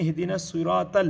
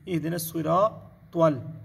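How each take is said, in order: First: The t is a light, plain sound. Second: The t is a heavy, emphatic sound. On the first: The speaker calls it wrong. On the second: The speaker calls it right.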